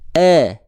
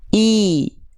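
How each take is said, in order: First: The vowel is low and sounds like 'e'. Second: The vowel is high and sounds like clear 'i'. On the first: The speaker calls it wrong. "Tapi coba kita tengah lidahnya jangan jangan diangkat" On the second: The speaker calls it right. "Tapi sekarang angkat tengah lidahnya"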